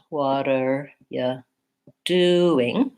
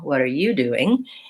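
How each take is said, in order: First: The stress falls on the word doing. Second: The stress falls on the word you. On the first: "the main stress is on do" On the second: "I'm changing the stress to be on you"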